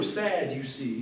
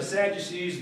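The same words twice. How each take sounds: First: "sad, you see" pulled apart into separate words; punning split. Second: Said in the usual way. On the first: Shown as a demonstration. Preacher puns on Sadducees to the congregation, "sad, you see" broken up. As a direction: stress "sad", then drop softer on "you see".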